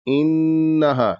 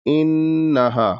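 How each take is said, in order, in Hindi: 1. नासिक 'n' ध्वनि थोड़ी देर तक रोकी जाती है। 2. नासिक 'n' ध्वनि थोड़ी देर तक रोकी जाती है।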